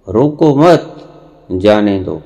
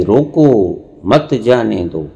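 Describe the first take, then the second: First: रोको मत run together, pause, then जाने दो; pause after मत. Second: रोको on its own, pause, then मत जाने दो together; pause after रोको. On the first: Preacher showing the opposite meaning, pause after मत. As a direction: break after मत, slowly releasing जाने दो on its own. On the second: Preacher showing how a pause changes meaning, pause after रोको. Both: Shown as a demonstration. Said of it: "ठहराव से ही".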